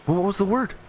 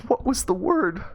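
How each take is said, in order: First: High, louder eager question; high-pitched inquisitive mother; curious mom. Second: High-pitched hysterical plea; acted maternal meltdown; mom breaking down. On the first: Acted. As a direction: ask as a mom bursting with curiosity. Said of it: "out of sheer curiosity". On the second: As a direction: wail it as a desperate mother. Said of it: "mom just starts breaking down".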